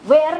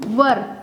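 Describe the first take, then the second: First: It is said with a long 'air' vowel. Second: It is said with a short 'ur' vowel. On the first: The speaker calls it wrong. "वेयर नहीं बोलना है" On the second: The speaker calls it right. "Right pronunciation is वर"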